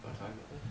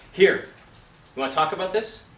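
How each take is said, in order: First: Very soft, low question; laid down, sympathetic. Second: Louder, higher challenge; expected confrontational reading. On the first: Coach imitating the actor's gentle take on the character, very quiet. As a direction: barely voice it, feeling for him. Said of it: "laid it down, looked at him, and, and felt for him". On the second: Coach imitating the scene partner the actor expected, a forceful challenge. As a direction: throw the question at him forcefully. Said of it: "he expected Danny Glover to come out and go". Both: Retold or imitated.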